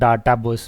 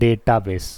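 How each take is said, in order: First: The first vowel is an open 'ah' sound. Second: The first vowel is an 'ay' sound. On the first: This is how people speak in the speaker's home region. The speaker calls it wrong. "Normal Bihar वगैरह में लोग डाटा base बोलते हैं" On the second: This is how people speak outside that region. The speaker calls it right. "बाहर में जाओगे तो पता है क्या बोलते हैं इसको"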